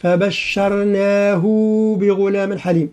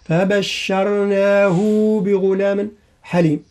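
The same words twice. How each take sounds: First: "فبشرناه بغلام حليم" slowly, with the ه of فبشرناه stretched; the mistaken long ه in "فبشرناه"; wrong madd on الهاء. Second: "فبشرناه بغلام حليم" slowly, with the ه of فبشرناه lengthened as Ibn Kathir does; Ibn Kathir reading. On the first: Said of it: "فلا نقول". (مد الهاء في "فبشرناه" خطأ) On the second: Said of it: "فيقرأها". (قراءة ابن كثير بمد الهاء) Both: Shown as a demonstration.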